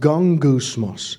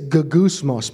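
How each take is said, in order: First: The middle has an ng sound before g. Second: The middle has a plain g with no n. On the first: The speaker calls it right. "but it's pronounced gongousmos" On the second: The speaker calls it wrong. "It says gogousmos"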